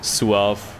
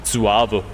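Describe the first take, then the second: First: "suave" said as "suahv"; German pronunciation. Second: "Suave" said as "zuahveh", German z and a final e; German pronunciation. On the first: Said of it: "If you pronounce suave in German". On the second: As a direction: read "Suave" the German way, three syllables. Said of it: "Pronounce that in German, you get". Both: Shown as a demonstration.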